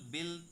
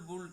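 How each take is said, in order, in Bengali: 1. স্বরধ্বনিটি 'bill' শব্দের ছোট 'i'-এর মতো শোনায়। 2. স্বরধ্বনিটি 'pull' শব্দের 'oo'-এর মতো শোনায়।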